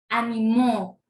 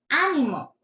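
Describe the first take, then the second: First: The stress is on the last syllable. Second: The stress is on the first syllable.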